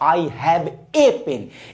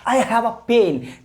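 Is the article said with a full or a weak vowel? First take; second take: full; weak. First: The article is a full 'ay' sound. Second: The article is a short weak 'uh' sound. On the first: The speaker calls it wrong. "ना कि आप उसको बोलिएगा" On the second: The speaker calls it right. "आ बोलो"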